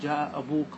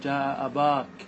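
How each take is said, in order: First: The vowel after the b is a long u. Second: The vowel after the b is a long a. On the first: This is the main and most widespread usage. "لغة الإتمام ... فتأتي لها بالواو" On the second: This is a valid usage but not the standard language. "أن تقتصر على الألف رفعا ونصبا وجرا"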